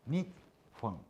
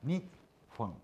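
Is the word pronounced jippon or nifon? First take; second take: nifon; nifon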